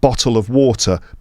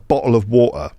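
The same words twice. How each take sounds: First: The t sounds are clearly pronounced. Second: The t sounds are glottal stops. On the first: "Instead of the T being pronounced at the front" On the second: "it's pronounced o, at the back"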